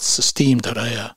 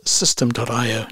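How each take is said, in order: First: "Systeme" said sis-TEEM, stressed on the second syllable; mispronunciation demo. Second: "System" said like the English word, stressed on the first syllable; pronunciation demo. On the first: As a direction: say "Systeme" with a long ee, rhyming with team. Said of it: "not Systeme dot I O". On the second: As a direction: say "System dot I O" with a short, unstressed second syllable in "System". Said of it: "It's pronounced System dot I O". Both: Shown as a demonstration.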